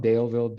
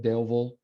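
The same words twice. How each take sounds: First: Daleville with a clear vill; full vowel ending on Daleville; full pronunciation. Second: Daleville ending in a schwa; reduced pronunciation. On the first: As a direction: say Daleville as spelt. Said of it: "un schwa". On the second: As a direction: say Daleville as Dale-vul. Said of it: "un schwa o una". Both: Shown as a demonstration.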